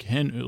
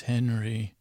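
First: "Hen-" said with a dramatic falling sweep. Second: Said in the usual way. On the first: Shown as a demonstration. Cielo saying Henry's name, dramatic falling "Hen-". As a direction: draw out "Hen-" like a soap-opera gasp. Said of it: "like, with drama". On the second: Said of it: "Uh, not like that".

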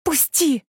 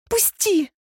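First: A raised angry shout of "Пусти!"; higher, yelling at him to let go; fierce but not a full scream; furious cry. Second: A sudden squeal of "Пусти!", much higher; high piercing cry for help. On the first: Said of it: "яростно закричала я". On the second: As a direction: squeal it out the moment the hand slips. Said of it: "взвизгнула я". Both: Acted.

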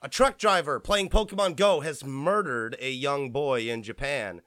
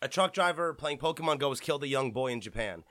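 First: Blurting the news too bluntly; tactless, matter-of-fact headline; blunt harsh delivery. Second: Sober, respectful. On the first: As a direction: drop the grim news with no softening. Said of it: "that sounded really harsh". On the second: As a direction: say it gently and respectfully. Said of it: "jokes aside, people". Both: Real, not acted.

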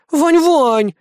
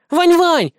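First: High, whining plea; girl whining plaintively; plaintive whine. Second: High, loud calling wail; girl loudly wailing for Vanya. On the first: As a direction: wheedle his name pitifully. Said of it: "жалобно продолжала конючить киса". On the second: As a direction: holler his name like a kid sister. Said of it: "громко заголосила младшая". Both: Acted.

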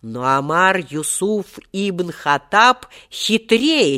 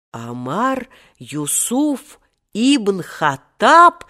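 First: Triumphant. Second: Astonished. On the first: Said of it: "торжествующе произнёс". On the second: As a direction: gasp the name out in shock. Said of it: "в один голос воскликнули поражённые ребята". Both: A narrator's reading.

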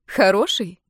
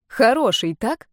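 First: Mocking «Хороший?» with a falling sneer; sarcastic «Хороший?» said dismissively. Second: Pointed repeat. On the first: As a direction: cut in and scoff «Хороший?». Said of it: "перебила её Крестова насмешливо". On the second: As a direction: demand she confirm «Хороший, так?». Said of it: "повторила Юля". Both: A narrator's reading.

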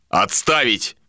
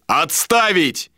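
First: Mild, restrained shout; shouted countermand. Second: High, drawn-out yell; yelled countermand. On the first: Captain cancels the boat order, mildly shouted countermand. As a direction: cut the order off with a light shout. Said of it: "крикнул Иштар". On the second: Captain overrules the mate, high slow yell. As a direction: bellow it to overrule him. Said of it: "заорал Иштар". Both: A narrator's reading.

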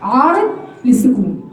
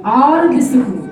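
First: عارض للسكون repeated even slower, stretched; teacher repeating the term slowly for students. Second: عارض للسكون said slowly, the vowel of عارض stretched; teacher to students, stretching عارض للسكون slowly; drawn-out term. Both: Shown as a demonstration. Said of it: "مد ايه؟".

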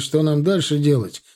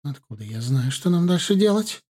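First: A touch of anger, stress on дальше; mildly angry. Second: Hurt. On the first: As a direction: press the point about what comes next. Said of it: "Окончательно разозлился Руслан". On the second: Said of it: "Обиженно отвернулась от него мать". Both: A narrator's reading.

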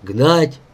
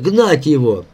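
First: "Гнать" with a rising question tune; questioning echo. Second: Falling, impatient command; barked order. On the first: Echoes the order as a question. («Гнать» с вопросительным подъёмом) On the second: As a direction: order him driven off, ending firmly. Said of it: "залаял Васька". (приказ с падением тона, лающе) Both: A narrator's reading.

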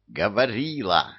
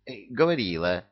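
First: Barked correction. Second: Said in the usual way. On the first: Acted. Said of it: "рявкнул режиссёр". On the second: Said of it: "согласился трус".

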